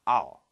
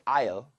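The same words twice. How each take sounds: First: It is said short and reduced, like 'ahl'. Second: It is said with a full, careful vowel. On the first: The speaker calls it right. "they probably will say I'll, I'll, something more similar to that" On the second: The speaker calls it wrong. "native English speakers, are not going to say I'll"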